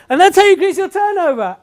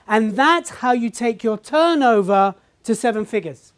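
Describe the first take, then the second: First: High, loud triumphant finish; triumphant climax. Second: Slow, weighty big finish; grand pinnacle line. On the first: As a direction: sell the big reveal loudly. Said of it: "I was like". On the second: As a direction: land the climax line slowly. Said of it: "the pinnacle moment was like this". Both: Retold or imitated.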